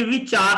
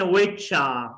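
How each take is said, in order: First: "which are" as two separate words, R sounded; unlinked wrong version. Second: "which are" run together as wi-chaa; linked pronunciation. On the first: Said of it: "ये which are नहीं है". (which are अलग-अलग, र के साथ) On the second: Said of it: "which are नहीं है". (which are मिला कर, विचा) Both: Shown as a demonstration.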